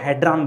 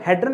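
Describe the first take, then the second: First: The second vowel sounds like an 'o'. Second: The second vowel sounds like a short 'a'. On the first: The speaker calls it right. "इसको हेड्रॉन बोलते हैं" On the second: The speaker calls it wrong. "ये हेड्रन की जगह याद रखिएगा"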